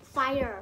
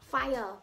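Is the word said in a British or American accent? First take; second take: American; British. First: It is said in an American accent. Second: It is said in a British accent. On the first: "follow tam US cứ dương nâng pronounce tha fire" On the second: "follow tam UK cứ dương nâng pronounce tha fire"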